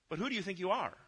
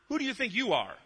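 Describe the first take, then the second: First: It is said in a sincere, questioning tone. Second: It is said in a mean, accusing tone.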